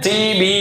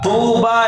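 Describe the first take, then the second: First: The first vowel is a spread 'ee' sound. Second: The first vowel is a rounded 'oo' sound. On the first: The speaker calls it wrong. "வாவு வர மாட்டேங்குது, யா வச்சு ஓதுறாரு" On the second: The speaker calls it right. "தூபான்னு ஓதணும்"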